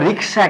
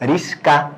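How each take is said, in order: First: The k sound comes before the s sound. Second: The s sound comes before the k sound. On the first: "রিক্সা একটা শব্দ আছে" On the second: "আমরা উচ্চারণ করে থাকি রিস্কা"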